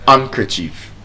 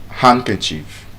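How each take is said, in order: The two takes are said the same way.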